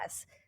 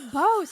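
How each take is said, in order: First: The vowel sounds like the one in cat. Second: The vowel sounds like the one in rose. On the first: The speaker calls it wrong. "like a Midwestern mom" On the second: The speaker calls it right. "it's Bose"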